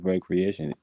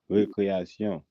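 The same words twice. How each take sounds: First: It is pronounced the English way. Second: It is pronounced the Haitian Creole way. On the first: "It's the same word, it just pronounced a different way" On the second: "Literally, they call it recreation"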